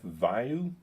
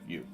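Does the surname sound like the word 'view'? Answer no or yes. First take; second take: no; yes. First: The surname is not said like 'view'. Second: The surname is said like 'view'. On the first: The speaker calls it wrong. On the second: The speaker calls it right.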